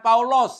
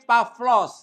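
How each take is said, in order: First: The 'a' is followed by a 'u' vowel. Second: The 'a' is followed by a 'v' sound. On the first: The speaker calls it wrong. "bukan Paulos ya" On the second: The speaker calls it right. "tapi Pavlos ya"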